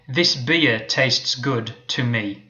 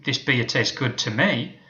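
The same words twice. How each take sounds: First: The words 'to me' are unstressed. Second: The words 'to me' are stressed.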